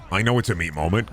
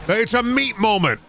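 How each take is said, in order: First: Said in the usual way. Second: Sudden high announce. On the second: Acted. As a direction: jump way higher for a big hyped reveal. Hyping up the meat moment.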